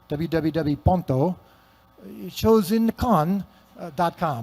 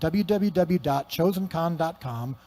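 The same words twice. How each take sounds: First: It is said in a put-on foreign accent. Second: It is said in the speaker's usual accent.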